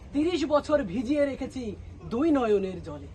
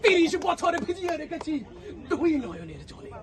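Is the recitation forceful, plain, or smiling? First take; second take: plain; forceful. First: It is recited in a plain, ordinary way. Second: It is recited in a forceful, self-important way. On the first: An ordinary person is reciting. "সাধারণ একজন এসে কবিতা আবৃত্তি করতেছে" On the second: A self-important local leader is reciting. "তার ভাবসাব ছিল এরকম"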